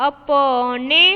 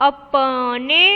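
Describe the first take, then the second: The two takes are said the same way.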